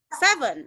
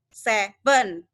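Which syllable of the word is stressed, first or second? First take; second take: first; second. First: The stress is on the first syllable. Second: The stress is on the second syllable. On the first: The speaker calls it right. "Jadi kalau untuk seven itu di depan" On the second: The speaker calls it wrong. "Kalau saya di stres di dua adalah seven"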